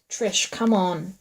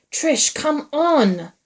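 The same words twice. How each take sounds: First: Slow, restrained urging; hissed. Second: High, loud, drawn-out call; shouted. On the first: Man urging her through the dark, hissed. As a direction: hiss it, drawing the words out. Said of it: "Wyatt hissed". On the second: Man urging her through the darkness, shouted. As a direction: shout to her, stretching every word. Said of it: "Wyatt shouted back". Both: A narrator's reading.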